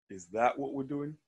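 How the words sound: The word 'that' is strongly stressed.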